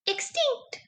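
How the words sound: It is said in a tiny, squeaky voice. "Can you say it in a mouse voice?"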